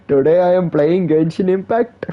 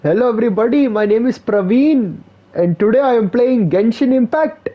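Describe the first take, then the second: First: A light hint of a mock Indian accent; half-hearted Indian streamer line. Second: High, hammed-up Indian accent, gamer intro; mock Indian streamer saying hello. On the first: Replaying the streamer intro, lightly in a mock Indian accent. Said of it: "Now you speak like Indian?". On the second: Mocking a Praveen streamer intro, high hammed-up Indian accent. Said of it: "every Indian can do the Indian accent".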